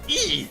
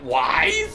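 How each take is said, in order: First: The name sounds like the word 'ease'. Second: The name sounds like the word 'wise'. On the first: The speaker calls it right. "Actually, no, it's pronounced Ys" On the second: The speaker calls it wrong. "you work at a game store and called it Wise?"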